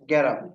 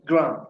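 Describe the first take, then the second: First: An extra vowel splits the opening consonant cluster. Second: The opening consonant cluster is said without a vowel. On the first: "সহজভাবে উচ্চারণ করি কি যদি গ্যারাম" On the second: "এটা উচ্চারণ হচ্ছে কি গ্রাম"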